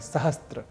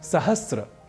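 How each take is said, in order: First: A t sound comes before the r. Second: No t sound comes before the r. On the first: The speaker calls it wrong. "कई लोगों के मुख से हम सुनते भी हैं सहस्त्र ... जबकि यह अशुद्ध है" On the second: The speaker calls it right. "सहस्र यह शब्द ही सर्वथा शुद्ध है"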